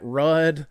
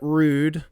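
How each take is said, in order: First: The vowel is short, as in 'mud'. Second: The vowel is long, as in 'rude'. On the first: The speaker calls it wrong. "If you pronounce that Rudd, I've been corrected" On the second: The speaker calls it right. "they say it's rude to not pronounce it correctly"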